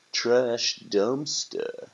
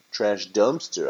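First: "Trash dumpster" drawn out slowly, pitched up; slow emphasis. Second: Said in the usual way. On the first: A narrator's reading. Narrator restating the corrected "Trash dumpster", slow and emphatic. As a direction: stretch both words of "Trash dumpster" deliberately.

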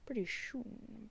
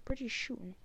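First: Slow drawn-out Jim Carrey. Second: Said in the usual way. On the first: Pretend. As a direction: stretch out "Pretty soon" slowly. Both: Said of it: "my weird Alfred slash Jim Carrey impression".

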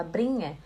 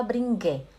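First: "bringe" with a soft ng, no g; correct pronunciation of bringe. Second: "bringe" with a hard g, like bring-gue; mispronounced bringe. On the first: Teacher giving students the right form, "bringe" without hard g. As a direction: let the ng in "bringe" glide straight into e. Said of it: "fala bringe". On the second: Teacher warning students off a mistake, "bringe" with hard g. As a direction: punch a separate g into "bringe". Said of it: "Não fala bringe". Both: Shown as a demonstration.

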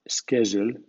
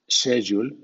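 First: "schedule" said as SKED-jool; American sk in schedule. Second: "schedule" said as SHED-yool; British sh in schedule. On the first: Teacher gives the American version, "schedule" with sk. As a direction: start "schedule" with a hard sk. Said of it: "en versión americana". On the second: Teacher gives the British version, "schedule" with sh. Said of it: "en versión británica". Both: Shown as a demonstration.

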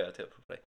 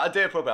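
First: Much lower and softer; reset, drop into a serious tone; low, quiet serious voice. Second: Said in the usual way. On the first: Shown as a demonstration.

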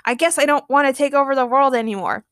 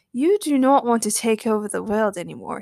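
First: Higher, dazed compliance; puzzled, suggestible agreement; stammered. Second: Measured hypnotic suggestion; even, deliberate persuasion; Jedi mind trick. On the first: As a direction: give in uncertainly, lightly acted. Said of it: "stammered Doug". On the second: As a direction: plant the idea calmly, lightly acted. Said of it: "used his Jedi mind tricks". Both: A narrator's reading.

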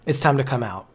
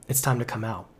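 First: Said in the usual way. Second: Quiet echo. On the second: Real, not acted. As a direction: repeat "It's time to come out" much softer and lower. Repeated invitation, hushed echo.

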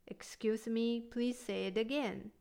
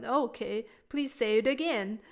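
First: Gentle, polite asking; softly asking someone to repeat; soft polite request. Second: A touch of a challenge, pushing; mildly confrontational demand to repeat; challenging tone. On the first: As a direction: ask softly, without pushing. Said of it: "Make it soft". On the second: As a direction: say it like you doubt them. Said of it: "sound like you're challenging someone". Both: Shown as a demonstration.

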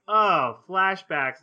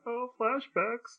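First: Excited oh flashbacks. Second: Slow, drawn-out mock groan at "Oh, flashbacks."; a sarcastic sigh of "flashbacks". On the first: Retold or imitated. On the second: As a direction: drag "Oh, flashbacks." out with weary sarcasm. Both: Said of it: "I'm like".

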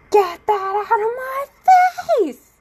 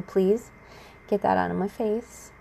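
First: High, loud re-enacted outburst; sudden yelling. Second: Even, restrained polite plea; calm, controlled request. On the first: Snapping at ex after repeated polite requests, re-enacted high yell. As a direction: explode from zero into a high-pitched yell. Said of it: "start yelling and being like". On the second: Retold or imitated. Ex keeps putting stuff in speaker's face, calm restrained request. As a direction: ask politely, keeping the temper held in. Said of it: "I'm calm, and I'm relaxed as much as possible".

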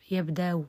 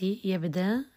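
First: يبدأ with hamza softened into a faint u; tashil with rawm. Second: يبدأ ending in a long open aa; ibdal to alif. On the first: Teacher shows second analogical form, softened hamza. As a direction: say يبدأ as "yabda-u", glottal stop eased away. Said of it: "بتسهيل". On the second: Teacher shows analogical pausing, hamza turned into alif. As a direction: say يبدأ as "yabdaa", no glottal stop. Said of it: "بالقياس يبدأ على ألف". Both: Shown as a demonstration.

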